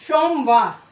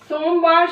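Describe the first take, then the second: First: The word begins with an sh sound. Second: The word begins with a plain s sound. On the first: The speaker calls it wrong. "लेकिन कई बार सोमवार का प्रयोग करते हैं" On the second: The speaker calls it right. "सोमवार शब्द होता है"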